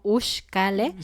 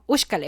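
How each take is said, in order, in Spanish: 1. La palabra se dice despacio y con pausa. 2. La palabra se dice rápido. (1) "suena como rusa" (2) "más rápido"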